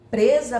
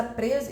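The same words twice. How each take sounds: First: Presa said loud and forceful; preacher voicing a trapped woman's prayer, presa punched loud; stressed word. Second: Said in the usual way. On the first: Shown as a demonstration. Hit presa hard and loud.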